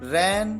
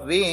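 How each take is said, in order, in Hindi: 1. स्वर खुला है, 'cat' की तरह। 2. स्वर ज़्यादा बंद है, 'bed' की तरह।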